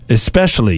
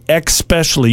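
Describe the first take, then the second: First: The word begins with an 's' sound. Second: The word begins with a 'ks' sound. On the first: The speaker calls it right. "The one you mispronounce all the time is especially" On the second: The speaker calls it wrong. "You put an X there instead of an S"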